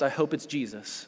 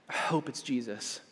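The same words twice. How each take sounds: First: Said in the usual way. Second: Softer echo of "I hope it's Jesus"; hushed, heartfelt second take; quiet repeat. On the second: Real, not acted. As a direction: drop the voice for the repeat.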